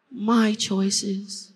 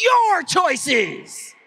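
First: Said in the usual way. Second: Your choices said loud and high, Your hit hard; louder. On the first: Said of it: "Say my choices". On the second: Shown as a demonstration. Speaker mimicking the crowd's louder reply, Your stressed hard. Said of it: "that one's always louder".

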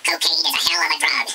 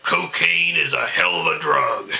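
First: Loud, high, fast catchphrase; fast comic repeat. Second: Loud, high punchline; punched comic catchphrase; comic punchline delivery. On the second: Punchline quote, repeated. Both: Acted.

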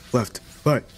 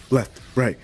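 No difference in how they are said.

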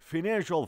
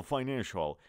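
First: Financial as "fi-NAN-shal", pitched up; short-i pronunciation. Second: Financial as "fy-NAN-shal"; long-i pronunciation. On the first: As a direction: open financial with a short "fin". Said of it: "you can say financial or". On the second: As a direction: open financial with "fine". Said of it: "or you can say financial". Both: Shown as a demonstration.

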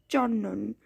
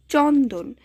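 First: চন্দন said with the d dropped and n doubled, chonnon. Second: Said in the usual way. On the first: Shown as a demonstration. Teacher showing students assimilation, চন্দন pronounced chonnon with double n. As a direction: say চন্দন as "chon-non", no d sound. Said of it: "নটা দুইবার উচ্চারণ হবে এবং দটা বাদ যাবে". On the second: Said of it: "দটা বাদ যাবে".

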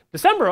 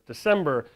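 First: December, jumped way up high and loud with sudden joy; December, burst out high and loud like great news; excited December. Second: Said in the usual way. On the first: Real, not acted. Founder reliving the month money appeared, excited.

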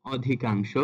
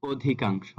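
First: "অধিকাংশ" with open অ first; ভুল উচ্চারণ. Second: "অধিকাংশ" with closed ও first; সঠিক উচ্চারণ. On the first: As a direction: begin "অধিকাংশ" on aw, not o. ("অধিকাংশ"-র শুরুতে খোলা অ) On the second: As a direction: begin "অধিকাংশ" on a rounded o. ("অধিকাংশ"-র শুরুতে ও ধ্বনি) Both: Shown as a demonstration. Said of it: "এটা সঠিক উচ্চারণটা হবে".

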